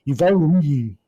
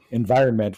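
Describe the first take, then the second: First: Environment slurred into "yoo-va-yee", higher and louder; mock French mispronunciation. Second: Said in the usual way. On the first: Imitating French speakers who won't pronounce it, environment mangled into mushy vowels. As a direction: swallow the consonants of environment, pitched up. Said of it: "when I'm saying environment". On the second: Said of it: "what I'm saying is".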